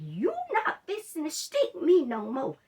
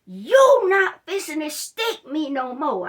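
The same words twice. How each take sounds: First: Louder and higher, laying down the law to the nurse; firm refusal. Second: Much louder, slower shout, every word hammered; angry shout. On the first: Patient refusing the nurse another needle stick, firm raised voice. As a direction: tell her flatly no more needles. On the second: Patient shouting at the nurse to stop the needles, furious slow shout. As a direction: blow up at her, no more sticking. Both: Retold or imitated. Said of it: "I'm about to lose it in that room".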